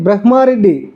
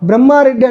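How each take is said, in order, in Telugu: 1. "h" శబ్దం "m" కి ముందు వస్తుంది. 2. "h" శబ్దం "m" కి తర్వాత వస్తుంది. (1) "పలకాల్సింది ఏంది?" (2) "అటు పలకడం రాక బ్రహ్మారెడ్డి అంటాం"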